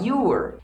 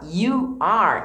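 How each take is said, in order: First: The two words merge into one contracted syllable. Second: Two separate words are said in full. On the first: "eu posso falar you're" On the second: "em vez de falar you are"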